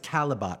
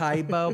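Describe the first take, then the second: First: The name is said with three syllables. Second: The name is said with two syllables. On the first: The speaker calls it right. "but it's Calabot" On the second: The speaker calls it wrong. "You want to say Kaibo"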